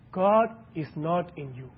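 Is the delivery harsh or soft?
soft. It is said softly and gently. "Speak softly"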